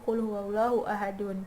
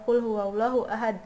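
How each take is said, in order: First: The last word ends with an added -un sound. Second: The last word stops on a bare d sound. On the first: The speaker calls it wrong. "tidak menjadi" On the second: The speaker calls it right. "Dibacanya e"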